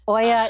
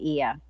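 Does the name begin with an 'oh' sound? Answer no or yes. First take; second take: yes; no. First: The name begins with an 'oh' sound. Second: The name begins without an 'oh' sound. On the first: This is how an audiobook narrator said it. "Oia is how they said it on the audiobook" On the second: This is how local people say it. "But I believe the locals say Ia"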